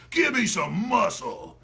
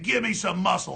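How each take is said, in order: First: Imitating her slow order; drawn-out mocking order; slow mocking bark of an order; slow mock command. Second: Said in the usual way. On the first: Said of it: "And she goes". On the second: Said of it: "It's the exact same thing".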